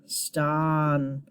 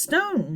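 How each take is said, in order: First: "ston" with an open ah, as in octopus; short O in ston. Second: "stone" with a long O, as in own. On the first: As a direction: say "ston" drawn out, rhyming with on. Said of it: "ah, like ah". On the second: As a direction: say "stone" to rhyme with bone. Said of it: "Not stone". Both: Shown as a demonstration.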